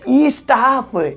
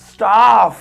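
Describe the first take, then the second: First: An extra vowel sound comes before the s. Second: The word starts directly with an s sound. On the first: The speaker calls it wrong. "ई स्टाफ थोड़ी होता है" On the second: The speaker calls it right. "वो ई नहीं, आधा सा है"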